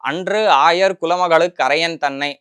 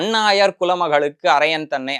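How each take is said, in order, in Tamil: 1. முதல் சொல் அதன் முழு 'anru' ஒலியுடன் இருக்கிறது. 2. முதல் சொல் 'annu' ஆகச் சுருங்கி, 'ayar' உடன் இணைகிறது. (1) "அப்படின்னு அந்த பாட்டு ஆரம்பிக்கிறது" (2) "அன்றுக்கு பதிலா அன்னு அப்படின்னு சொல்லிட்டேன்"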